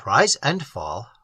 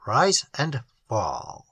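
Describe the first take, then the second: First: Said in the usual way. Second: Drawn out, much slower and softer. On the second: A narrator's reading. Narrator lingering on the swallowing, slow and hushed. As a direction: let the repeat sink slowly.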